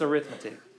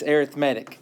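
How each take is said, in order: First: It is said with the noun's stress pattern. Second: It is said with the adjective's stress pattern. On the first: The word names the branch of math. "When it's used as a noun" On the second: The word describes a kind of sequence. "When it's used as an adjective"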